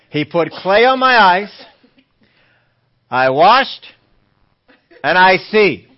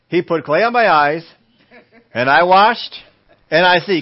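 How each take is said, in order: First: It is said very slowly. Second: It is said at normal speed.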